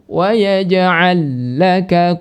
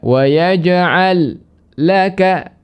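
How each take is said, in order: First: The two lam sounds merge into one doubled lam. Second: The two lam sounds are pronounced separately. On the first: The speaker calls it right. "langsung wa yaj'al laka qusura dengan ditasydidkan lam keduanya" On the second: The speaker calls it wrong. "tidak dibaca wa yaj'al laka, tidak diizharkan"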